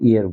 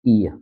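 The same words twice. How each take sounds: First: The final r sound is pronounced. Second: The final r sound is silent. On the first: The speaker calls it wrong. "ईयर ना बोल के" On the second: The speaker calls it right. "Last का जो आर है वो आप silent रखें"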